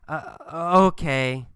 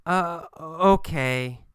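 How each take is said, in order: First: Hesitant. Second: Slow, drawn-out uh before okay; hesitant. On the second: Kathy giving in to Gabriel, hesitant. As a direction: let the okay come slowly, unsure. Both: Acted.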